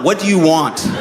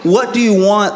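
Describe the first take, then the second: First: It sounds weary and defeated, like a failing marriage. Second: It sounds exasperated, like soothing a crying baby.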